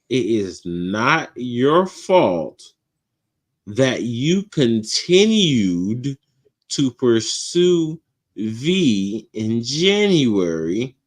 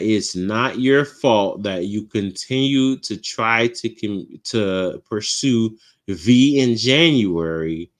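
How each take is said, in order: First: It is said slowly and deliberately. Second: It is said at a normal speed.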